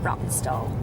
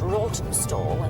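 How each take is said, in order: First: The name is said in a relaxed, local way. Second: The name is said in a careful, spelled-out way. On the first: This is how people who live there say it. "But locals pronounce it Rottenstall" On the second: This is the official way to say the name. "It should be pronounced Rottenstall"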